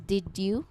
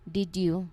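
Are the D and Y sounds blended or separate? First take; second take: separate; separate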